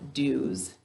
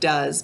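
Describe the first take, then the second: First: The word has an 'oo' vowel. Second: The word has its everyday 'uh' vowel. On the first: This pronunciation helps with spelling the word. "how do we say it to spell it? Good, dues" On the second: This is how the word is normally said. "we say the word does"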